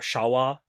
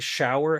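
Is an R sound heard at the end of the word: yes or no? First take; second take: no; yes. First: The word ends in a plain vowel without R. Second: The word ends with an R sound.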